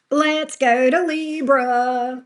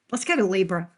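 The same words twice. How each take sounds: First: Slow drawn-out call. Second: Said in the usual way. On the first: Acted. Announcing the next sign, drawn out.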